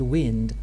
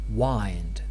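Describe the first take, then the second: First: The vowel is short, rhyming with 'pinned'. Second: The vowel is long, rhyming with 'find'. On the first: "the word wind" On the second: "why I pronounce the word wind wind"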